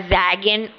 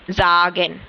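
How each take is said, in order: First: The first vowel is an ae sound. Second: The first vowel is a long a. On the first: The speaker calls it wrong. "या जैगेन नहीं है" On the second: The speaker calls it right. "ये आ की साउंड दे रहा है"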